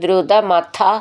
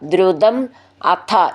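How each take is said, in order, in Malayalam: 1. ഈ രണ്ട് വാക്കുകളും ചേർത്ത് ഒന്നാക്കിയാണ് പറയുന്നത്. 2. ഈ രണ്ട് വാക്കുകളും വെവ്വേറെയാണ് പറയുന്നത്.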